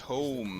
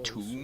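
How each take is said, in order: First: The vowel is a long 'oh' sound. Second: The vowel is a long 'oo' sound. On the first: A large book. The speaker calls it right. "It's tome" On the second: A place where the dead are put. The speaker calls it wrong. "not tomb. Tomb is where you put dead people"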